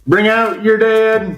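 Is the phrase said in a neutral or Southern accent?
Southern. It is said in a put-on Southern accent. The speaker calls it right. "I went southern on that"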